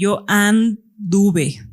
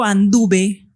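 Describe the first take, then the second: First: "anduve" broken after "and", pause, then "duve"; very slow "anduve", the stem held apart; stem split off. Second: Said in the usual way. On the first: Shown as a demonstration. Teacher shows the unchanged stem of a verb, "anduve" split after "and". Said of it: "el lexema está invariable". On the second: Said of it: "cuando yo digo anduve".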